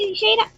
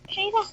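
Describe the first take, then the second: First: Loud rising call of her name. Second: Said in the usual way. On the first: Real, not acted. Girl calling her friend Shaira over, loud. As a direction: shout for her friend across the room.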